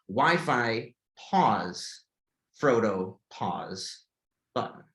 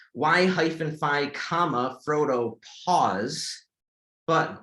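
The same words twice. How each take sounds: First: "Wi-Fi" said as one word, then "pause, Frodo, pause, button" in a falling, lower voice with gaps; correct screen reader readout. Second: "Y hyphen phi, comma, Frodo" read slowly, spelling out the hyphen and the comma as words; wrong screen reader readout. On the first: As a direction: read it the way a screen reader should, with pauses between the parts. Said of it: "I should hear". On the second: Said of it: "That's a problem". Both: Shown as a demonstration.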